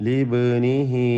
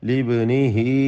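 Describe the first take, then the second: The two takes are said the same way.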